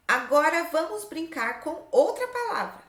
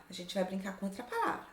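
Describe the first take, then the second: First: Higher, emphatic teacher read-aloud; lifted, deliberate classroom reading; reading out instructions. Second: Said in the usual way. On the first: Shown as a demonstration. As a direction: read the exercise aloud to young pupils. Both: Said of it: "Olha só o que tá escrito aqui".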